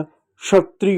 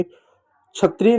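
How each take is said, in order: First: क्षत्रिय said "shatriy"; correct sh sound. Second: क्षत्रिय mispronounced "chhatriy"; wrong chh sound. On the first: Teacher repeating it right for children, क्षत्रिय as "shatriy". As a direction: open क्षत्रिय with sh. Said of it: "श जैसा इसका उच्चारण होता है". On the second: Teacher warning children of a mistake, क्षत्रिय as "chhatriy". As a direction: start क्षत्रिय with chh, not sh. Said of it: "क्षत्रिय नहीं होता". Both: Shown as a demonstration.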